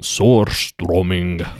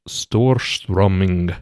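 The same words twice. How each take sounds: First: Storströmming said slowly, Swedish style; slow careful Storströmming, Swedish sounds; Swedish pronunciation. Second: Storströmming said slowly; slow careful Storströmming; Swedish word. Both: Shown as a demonstration. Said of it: "Can you say that word again?".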